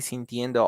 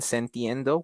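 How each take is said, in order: First: The first vowel sounds like i. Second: The first vowel sounds like e. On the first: The speaker calls it right. "you will say sintiendo" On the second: The speaker calls it wrong. "which is a little bit weird"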